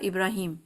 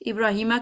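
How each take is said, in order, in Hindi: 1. यह नाम 'm' व्यंजन पर खत्म होता है। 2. यह नाम छोटे 'a' स्वर पर खत्म होता है। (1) "एंड पे रुकता है" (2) "इब्राहिमा की जगह"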